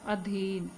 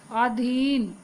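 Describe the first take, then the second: First: अधीन with a short a and breathy dh; अधीन said adheen with an aspirated dh; correct form. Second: अधीन with a plain d; अधीन said adin without breathy dh; wrong form. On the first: Teacher gives children the correct अधीन, adheen. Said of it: "ये होता है अधीन". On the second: Teacher shows children the wrong अधीन, said adin. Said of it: "अधीन नहीं होता बच्चों". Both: Shown as a demonstration.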